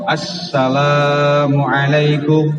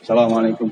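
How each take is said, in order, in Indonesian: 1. Bunyi 'al' di awal ditahan dan terdengar jelas. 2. Diucapkan terburu-buru dan bunyi 'al'-nya hilang. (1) "agak sedikit ditahan agar memperjelas bahwa ini memakai alif lam" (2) "kita kan buru-buru sholatnya"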